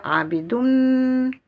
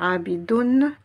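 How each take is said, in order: First: "abidoun" with the final n melted into "m", said higher, louder and slower; assimilated n into m. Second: "abidoun" with the n kept separate before mim; wrong linking. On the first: Teacher showing students the correct linked "abidoun". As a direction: glide "abidoun" straight into the mim so it ends "abidoum". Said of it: "je vais dire abidoun". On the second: Teacher showing students the unlinked "abidoun". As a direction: say "abidoun" ending in a plain "n", no assimilation. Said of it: "au lieu de dire abidoun". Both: Shown as a demonstration.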